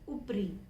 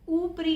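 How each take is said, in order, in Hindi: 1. पहला स्वर छोटा है। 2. पहला स्वर लंबा है। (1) "हम सिंपल बोलेंगे ऊपरी" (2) "ऊपरी नहीं बोलेंगे क्योंकि इसमें छोटा ऊ है"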